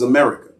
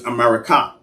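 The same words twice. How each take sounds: First: Said in the usual way. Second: America said as "a-ma-ra-KAH"; original Mayan pronunciation. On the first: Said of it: "they eventually pronounced it as". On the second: Shown as a demonstration. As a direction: end America on a full, open KAH. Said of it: "but it was".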